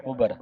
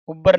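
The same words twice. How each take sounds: First: ਉਬਰ with a light single b; gentle ਉਬਰ, no doubled b; soft, loose pronunciation. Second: ਉਬਰ loud with a doubled b, "ub-bar"; the mistaken tight ਉਬਰ; hard misreading. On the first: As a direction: let ਉਬਰ go soft, "ubar". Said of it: "ਪੋਲਾ ਸ਼ਬਦ ਪੜ੍ਹਨਾ ਇਹਨੂੰ". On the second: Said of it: "ਉਬਰ ਨਹੀਂ ਕਹਿਣਾ". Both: Shown as a demonstration.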